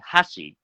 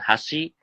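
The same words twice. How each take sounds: First: The emphasis falls on the first syllable. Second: The emphasis falls on the second syllable. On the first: It means chopsticks. "if you emphasize on the first sound, ha, saying hashi makes it sound like more a chopstick" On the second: It means bridge. "put emphasis on second character shi, then hashi, that's for bridge"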